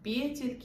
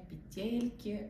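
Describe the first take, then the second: First: The stress is on the first syllable. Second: The stress is on the second syllable. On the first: The speaker calls it right. "правильно произносите слово «петельки»" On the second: The speaker calls it wrong. "а не «петельки», но мне так нравятся петельки"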